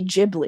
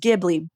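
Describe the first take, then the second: First: The word begins with a softer, changed G sound. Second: The word begins with a hard G sound. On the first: "Miyazaki can't pronounce G's, so they say Ghibli" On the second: "correct way to say that word is Ghibli"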